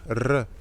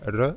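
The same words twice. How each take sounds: First: The r sound is long and doubled. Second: The r sound is short and single. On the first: "et un double R, R" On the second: "un simple R, on le prononce R"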